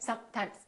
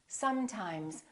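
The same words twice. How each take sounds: First: The s and m sounds are cut short. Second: The s and m sounds are held long. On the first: The speaker calls it wrong. "Don't say" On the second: The speaker calls it right. "take your time and fully pronounce the continuant"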